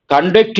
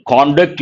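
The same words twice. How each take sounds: First: Conduct with stress on the second syllable, con-DUCT; verb stress. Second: Conduct stressed on the first syllable, CON-duct; noun stress. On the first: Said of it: "Conduct is a verb". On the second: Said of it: "Conduct is a noun". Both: Shown as a demonstration.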